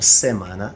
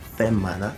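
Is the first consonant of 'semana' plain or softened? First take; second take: plain; softened. First: The first consonant sounds plain and ordinary. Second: The first consonant sounds softened, almost breathy.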